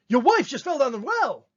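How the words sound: It is said as a forceful exclamation.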